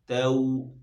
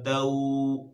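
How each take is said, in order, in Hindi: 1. स्वर छोटा और नरमी से बोला गया है। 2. स्वर लंबा खींचा हुआ है। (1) "नरमी से पढ़ना है ... तऊ ये करना है" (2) "खींचने से बचाना है, ... ये नहीं करना है"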